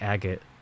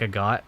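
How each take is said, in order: First: The name sounds like the word agate. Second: The name ends sounding like the word got. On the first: "if you say it like agate" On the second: "I say it like a got"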